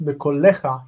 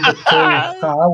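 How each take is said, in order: First: A full vowel sounds between l and ch. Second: The l runs straight into the ch sound. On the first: This is the form used at a pause. "but bekolecha in pause" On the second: This is the ordinary form in mid-sentence. "you're saying bekolcha, which is normal"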